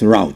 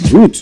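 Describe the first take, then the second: First: The word does not rhyme with 'boot'. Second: The word rhymes with 'boot'. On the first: The speaker calls it wrong. "not route" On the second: The speaker calls it right. "R O O T is root. Same with R O U T E. Root"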